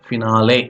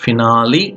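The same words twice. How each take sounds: First: "finale" as fi-NAH-lay; pronunciation ending in LAY. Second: "Finale" as fi-NAH-lee, rising at the end; pronunciation ending in LEE. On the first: Teacher repeats two types of pronunciation, this ending in LAY. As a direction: end "finale" on a clear LAY. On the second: Teacher repeats two types of pronunciation, this ending in LEE. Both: Shown as a demonstration. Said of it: "two types of pronunciations are there".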